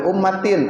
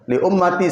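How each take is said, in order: First: The word ends with an added n sound. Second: The word ends in a plain i vowel. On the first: The speaker calls it wrong. "nggak boleh sembarangan" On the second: The speaker calls it right. "kalau baca ummati nggak boleh pakai ummatin"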